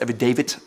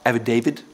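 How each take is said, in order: First: It ends with a clear 't' sound. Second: It ends with a 'd' sound, like the name. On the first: The speaker calls it right. "it's affidavit with a T" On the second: The speaker calls it wrong. "It's not affidavit like the name"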